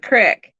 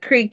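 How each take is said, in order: First: The word has its local regional pronunciation. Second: The word has its usual standard pronunciation. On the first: "you're going to the crick" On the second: "instead of going to the creek"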